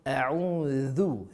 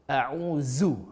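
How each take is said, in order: First: The consonant is a 'th' sound, tongue on teeth. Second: The consonant is a buzzing 'z' sound. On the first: The speaker calls it right. "za, hujung lidah, hujung gigi" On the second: The speaker calls it wrong. "jangan kita sebut seperti zai ... ha, salah lah"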